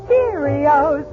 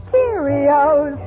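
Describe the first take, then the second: No difference in how they are said.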